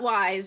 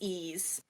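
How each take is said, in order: First: The name is said like 'wise'. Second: The name is said like 'ease'. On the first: The speaker calls it wrong. "It's not wise" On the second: The speaker calls it right. "It's Ease"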